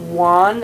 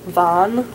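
First: The word begins with an English W sound. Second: The word begins with a V sound. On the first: The speaker calls it wrong. "instead of like wan" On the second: The speaker calls it right. "it's van"

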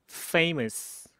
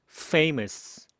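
No difference in how they are said.

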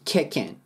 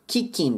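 First: The final g sound is dropped. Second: The final g sound is fully pronounced. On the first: The speaker calls it right. "I はA。G は消えるので" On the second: The speaker calls it wrong. "Kicking ではなく"

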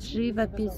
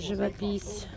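First: The stress falls on the first syllable. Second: The stress falls on the last syllable. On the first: It is the standard form of the word. The speaker calls it right. "правильно говорить живопись" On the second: It is a playful quote from a film. The speaker calls it wrong. "Зачем вы коверкаете слова?"

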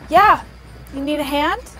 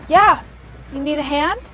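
Both takes have the same delivery.

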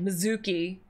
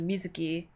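First: The second syllable carries strong stress. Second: The second syllable carries no strong stress. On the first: The speaker calls it wrong. "They always stress the second syllable, like ... Mizuki" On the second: The speaker calls it right. "instead of Mizuki"

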